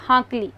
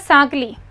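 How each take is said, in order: First: The word begins with an h sound. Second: The word begins with an s sound. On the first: "Mewar में जैसे ज्यादातर ह बोला जाता है" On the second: "ये स और ह"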